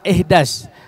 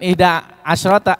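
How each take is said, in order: First: The number is said in a shortened form. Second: The number is said in its full form. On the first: This is how Arabs say it in everyday speech. "suka disingkat tuh ihdas" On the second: This is the textbook form. "bukan ihda asyrota"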